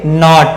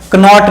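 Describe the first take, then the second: First: नॉट starts straight on n; silent-k pronunciation. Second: कनॉट, k sounded before n, higher; wrong pronunciation. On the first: Teacher gives the correct reading of knot, silent-k pronunciation. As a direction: drop the k entirely in नॉट. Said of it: "इसे पढ़ेंगे". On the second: Teacher rejects sounding the k, wrong pronunciation. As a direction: hit the false k in कनॉट. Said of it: "कनॉट नहीं". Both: Shown as a demonstration.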